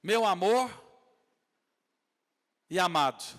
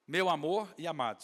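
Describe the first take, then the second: First: "Meu amor" proclaimed loud and rising, pause, then "e amado"; declared meaning, loud. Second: "Meu amor e amado" said together in one phrase, moderately loud; repeated meaning, steadier. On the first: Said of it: "é o significado desses nomes". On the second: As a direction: run "Meu amor e amado" straight through. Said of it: "se eu não me engano". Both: Shown as a demonstration.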